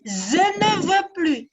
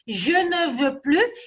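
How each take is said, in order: First: The first word starts with a z sound. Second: The first word starts with a zh sound. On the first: The speaker calls it wrong. "il dit" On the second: The speaker calls it right. "Au lieu de dire je ne veux plus"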